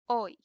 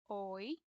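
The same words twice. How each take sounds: First: It is said fast. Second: It is said slowly.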